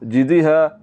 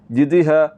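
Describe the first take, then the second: First: The first vowel is cut short. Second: The same.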